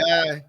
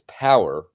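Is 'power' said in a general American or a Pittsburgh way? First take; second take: Pittsburgh; general American. First: The word is said in a Pittsburgh way. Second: The word is said in a general American way. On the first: This is how locals say it. "We say" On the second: This is how outsiders say it. "We don't say it that way"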